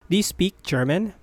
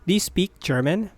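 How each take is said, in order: Both takes have the same delivery.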